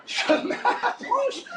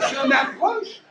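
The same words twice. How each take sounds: First: Very slow, high creep; high, comically slow delivery; stretched-out approach. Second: Said in the usual way. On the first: Acted. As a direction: draw every syllable out as you sneak closer. Repeats approach, creeping and drawn out.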